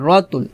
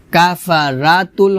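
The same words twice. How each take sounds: First: রতুল with a full, thick র; correct heavy ra. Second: কাফারাতুল read with the plain ending, the error; wrong ending. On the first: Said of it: "হবে রতুল". (রতুল-এর র মোটা করে) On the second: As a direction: say কাফারাতুল carelessly. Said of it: "কাফারাতুল হবে না". (ভুলভাবে কাফারাতুল) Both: Shown as a demonstration.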